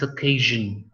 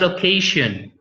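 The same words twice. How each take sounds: First: The middle consonant is a voiced buzzing zh. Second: The middle consonant is a voiceless hissing sh. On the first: The speaker calls it right. "it's occasion" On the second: The speaker calls it wrong. "It is not occasion"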